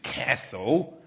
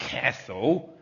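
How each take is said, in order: First: It is said with an American accent. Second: The same.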